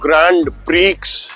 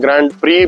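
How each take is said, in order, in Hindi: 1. d और x, दोनों बोले जाते हैं। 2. d बोला जाता है, x नहीं। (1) "ग्रैंड प्रीक्स या ग्रैंड प्री बोलते हैं" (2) "ग्रैंड प्रीक्स या ग्रैंड प्री बोलते हैं"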